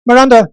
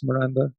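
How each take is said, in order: First: Miranda cried out high and loud. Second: Barely-spoken trailing Miranda; quiet. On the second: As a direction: let Miranda fade to almost nothing. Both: Acted. Refrain after poem line.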